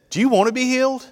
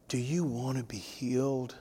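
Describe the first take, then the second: First: Higher and louder, bright and eager. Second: Softer, limp and uninterested; listless. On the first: Preacher showing how Jesus really asked, eager and higher. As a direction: ask it with lively urgency, pitched up high. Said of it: "He said". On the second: Preacher showing how Jesus did not ask it, listless and softer. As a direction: ask it like you couldn't care less, softly. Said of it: "Jesus didn't come up to him and say". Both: Shown as a demonstration.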